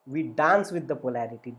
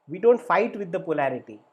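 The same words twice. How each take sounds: First: "dance" leaned on warmly as the answer; stress on dance. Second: "don't" hit hard and louder; stress on don't. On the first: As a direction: land on "dance" as the right way. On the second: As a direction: punch "don't" as the thing to avoid. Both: Shown as a demonstration.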